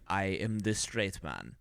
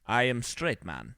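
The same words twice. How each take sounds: First: Slow, lower mock Russian accent. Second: A hint of a bad movie Russian accent; mock Russian accent. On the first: Imitating the Russian character in a slow Russian accent. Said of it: "and then he's like". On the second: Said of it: "he has the terrible Russian accent".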